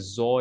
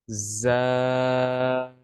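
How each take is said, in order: First: The letter is said heavy with a rounded vowel. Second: The letter is said light with an open vowel. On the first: The speaker calls it wrong. "We cannot say zo in it. That would be wrong" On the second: The speaker calls it right. "Za is not the bold letter"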